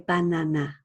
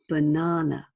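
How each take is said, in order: First: All three vowels are said with the same sound. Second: It is said in a British accent. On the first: "in Korean, you would say banana. You would say those sounds the same" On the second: "I am British and I use British pronunciation. So for example, the word banana, I say banana"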